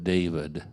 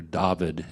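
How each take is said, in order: First: Said in the usual way. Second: "David" said the Hebrew way, as DAH-veed; Hebrew pronunciation. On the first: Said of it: "as it would be pronounced". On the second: Shown as a demonstration. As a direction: say "David" with an open "ah" in the first syllable. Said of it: "as it would be pronounced in, in Hebrew".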